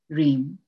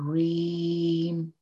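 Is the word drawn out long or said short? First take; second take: short; long. First: The word is said short. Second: The word is drawn out long.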